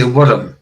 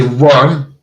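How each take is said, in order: First: "worm" said as "wurrum"; rolled two-syllable worm. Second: Said in the usual way. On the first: Shown as a demonstration. Scot showing their own way, "wurrum" with rolled R. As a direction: roll the R and add a vowel in "worm". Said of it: "I say worm". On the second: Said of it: "like you say worm".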